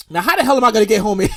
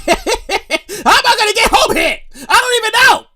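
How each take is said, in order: First: Said in the usual way. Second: High, stretched-out whine with a laugh; mock despair. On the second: Stranded rider wondering how to get home, mock wailing. Second take, acted despair.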